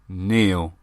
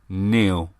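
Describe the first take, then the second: First: The name is said like Neil. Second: The name is said like Neil.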